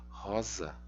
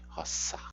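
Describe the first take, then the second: First: The middle consonant is a voiced z sound. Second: The middle consonant is a voiceless s sound. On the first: The speaker calls it wrong. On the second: The speaker calls it right.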